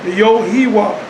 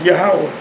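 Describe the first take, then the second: First: It is said in three syllables, starting with 'yo'. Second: It is said in two syllables, starting with 'yah'. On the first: The speaker calls it wrong. "that's not the way you pronounce the name of the Most High" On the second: The speaker calls it right. "it's Yahweh"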